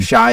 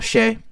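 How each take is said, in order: First: The name rhymes with 'my'. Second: The name rhymes with 'day'. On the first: This is the old way of saying the name. The speaker calls it wrong. "Shy is now" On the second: This is how the name is said now. The speaker calls it right. "is now Shay"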